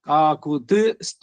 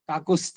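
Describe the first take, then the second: First: A t sound is heard before the final syllable. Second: No t sound is heard before the final syllable. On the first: The speaker calls it right. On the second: The speaker calls it wrong. "ಕಾಕುಸ್ಥ ಅನ್ಬಿಡೋದು"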